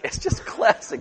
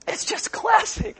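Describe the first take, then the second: First: Breathy whispered repeat. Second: High delighted exclaim. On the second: Repeated delighted remark. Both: Real, not acted.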